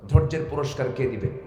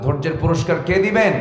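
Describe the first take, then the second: First: Said in the usual way. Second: Louder, higher demand for an answer; insistent repeat. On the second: Real, not acted. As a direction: push the question out to the crowd. আসতে বলুন. (জোর দিয়ে আবার প্রশ্ন)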